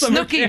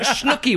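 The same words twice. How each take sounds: First: The name is said without an added h sound. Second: The name is said with an added h sound. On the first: The speaker calls it right. "It's Snooki" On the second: The speaker calls it wrong. "not Snooki. Why do you add an H?"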